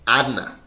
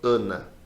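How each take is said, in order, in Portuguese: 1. A primeira vogal é aberta, como um a bem aberto. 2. A primeira vogal é fechada, como um schwa. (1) "a gente não fala Ana... Não é aberto assim" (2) "um sonzinho um pouco mais fechado. A gente fala Ana"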